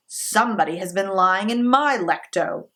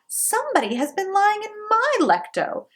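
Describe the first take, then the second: First: Louder gruff papa bear; papa bear's rough, gruff voice; great rough gruff voice. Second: High mother bear voice; the mama bear, pitched well up; mama bear's high middle voice; middle-sized voice. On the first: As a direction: boom it a little like the father bear. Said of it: "in his great rough, gruff voice". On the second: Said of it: "in her middle-sized voice". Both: A narrator's reading.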